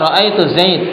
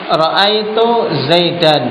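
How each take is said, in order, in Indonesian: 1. Nama itu berakhir dengan konsonan mati. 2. Nama itu berakhir dengan bunyi '-an'.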